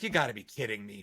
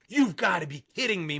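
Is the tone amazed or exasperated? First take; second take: exasperated; amazed. First: It sounds exasperated and disappointed, fed up. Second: It sounds amazed and delighted by a surprise.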